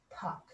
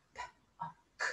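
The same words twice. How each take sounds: First: Said in the usual way. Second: "P-O-K" as three soft separate sounds, p, o, k; sounded out. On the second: Shown as a demonstration. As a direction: segment "P-O-K" sound by sound. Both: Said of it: "Let's sound out pock".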